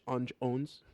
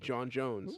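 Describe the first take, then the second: First: The name is broken up with little breaks. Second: The name is said smoothly without breaks. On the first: The speaker calls it wrong. "I always feel like there's meant to be like a break" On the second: The speaker calls it right. "it's just meant to be John Jones"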